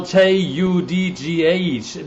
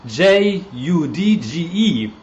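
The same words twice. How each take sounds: First: "J U D G H" spelled out slowly, letter by letter, with a German touch; German-style spelling. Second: "J U D G E" spelled slowly, letter by letter, as the proper English word; correct English spelling. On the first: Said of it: "it's a German style". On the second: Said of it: "sorry, my German accent". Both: Shown as a demonstration.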